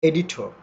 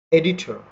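First: এডিটর said softly with no final r, like edito; native pronunciation. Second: এডিটর with the final r sounded; the Bengali way, r clear at the end; wrong pronunciation. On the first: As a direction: say এডিটর without the r. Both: Shown as a demonstration. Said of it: "not এডিটর".

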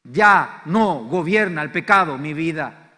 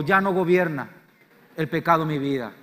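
First: Slow, loud, word-by-word "Ya no gobierna el pecado mi vida"; slow declaration. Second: "Ya no gobierna el pecado mi vida" in shorter phrases, stress on "Ya" and "pecado"; call-and-response line. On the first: Preacher giving the congregation a line to echo, slow and loud. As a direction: lay out "Ya no gobierna el pecado mi vida" slowly for the crowd to repeat. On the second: Preacher leading the congregation in repeating, firm and loud. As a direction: lead the echo phrase by phrase. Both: Shown as a demonstration. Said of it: "Decí conmigo".

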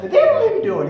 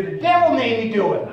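First: Very high, loud comic squeal; exaggerated high-pitched comedy catchphrase; Geraldine impression. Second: Loud, raised comic voice; mock excuse, pitched up and punched out; Geraldine impression. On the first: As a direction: shriek the excuse in a falsetto woman's voice. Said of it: "He used to do this with this high-pitched voice". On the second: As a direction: lightly imitate a high-pitched comic woman. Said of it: "with this high-pitched voice".

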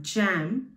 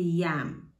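First: Said in the usual way. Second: "yam" begins with a Y sound; German-style J in "yam", a Y glide. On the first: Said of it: "an English word jam". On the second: Shown as a demonstration. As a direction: say "yam" as jam with J turned into Y. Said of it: "it has a Y pronunciation".

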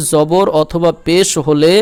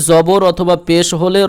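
Both takes have the same delivery.

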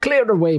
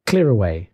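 First: High, jovial cry; Fezziwig. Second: Said in the usual way. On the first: Acted. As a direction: call it out high and hearty. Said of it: "cried old Fezziwig".

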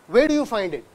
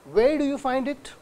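First: Said in the usual way. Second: "Where do you find it" climbing to a high end; rising intonation. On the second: Shown as a demonstration. Lecturer showing students how questions sound, rising intonation. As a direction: lift the tune on "find it" as a question. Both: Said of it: "it's a rising intonation".

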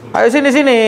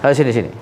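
First: Called out. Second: Said in the usual way. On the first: Real, not acted. Calling the patient over.

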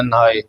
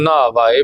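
First: ਨਹਾਏ said light and soft; soft pronunciation. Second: ਨਾਵ ਆਏ said with weight; heavy pronunciation. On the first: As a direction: keep ਨਹਾਏ light, not heavy. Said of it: "ਇਹਨੂੰ ਪੋਲਾ ਬੋਲਣਾ". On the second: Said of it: "ਬੋਲਣਾ ਹੈ ਭਾਰਾ ਕਰਕੇ". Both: Shown as a demonstration.

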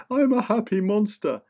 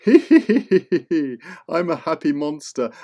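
First: Much higher, bouncy happy monster; squeaky happy monster. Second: Slow, laughing monster voice; laughing happy monster. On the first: Happy monster repeating itself to kids, high and giddy. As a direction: sing it out like a giddy little beast. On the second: Happy monster introducing itself to kids, slow and laughing. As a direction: chuckle through it like a jolly beast. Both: Acted.

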